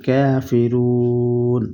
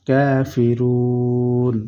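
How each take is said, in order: No difference in how they are said.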